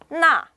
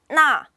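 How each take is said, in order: First: The vowel sounds like 'na'. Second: The same.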